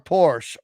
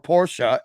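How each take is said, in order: First: The name is said in an everyday pronunciation. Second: The name is said in a careful pronunciation.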